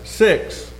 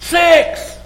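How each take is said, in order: First: It is said at normal volume. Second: It is said loudly.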